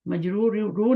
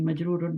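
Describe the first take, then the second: First: The word ends in a plain 'u' vowel. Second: The word ends with an 'un' sound. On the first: The speaker calls it wrong. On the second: The speaker calls it right.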